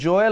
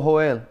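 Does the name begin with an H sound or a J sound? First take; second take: J sound; H sound. First: The name begins with a J sound. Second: The name begins with an H sound. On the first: "is it a J or a H?" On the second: "is it a J or a H?"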